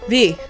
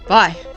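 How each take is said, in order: First: The name is said like 'vee'. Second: The name is said like 'vye'. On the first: The speaker calls it right. "even though it's V" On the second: The speaker calls it wrong. "I keep calling you Vi"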